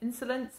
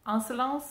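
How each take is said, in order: First: It is said with a British pronunciation. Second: It is said with a French pronunciation.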